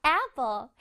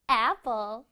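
Both takes have the same delivery.

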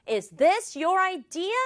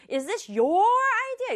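First: Said in the usual way. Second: Your punched hard and drawn out; accusing question leaning on your; stress on your. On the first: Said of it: "첫 번째 문장은 강조 안 했죠". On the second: Shown as a demonstration. Brother grilling about the idea, stressing your. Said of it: "추궁을 하고 싶으면".

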